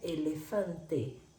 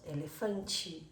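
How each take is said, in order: First: The final vowel sounds like e. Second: The final vowel sounds like i. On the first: This is how it is said in Spanish. "la letra E tiene siempre sonido de E" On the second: This is how it is said in Portuguese. "En portugués muchas veces decimos el final como i"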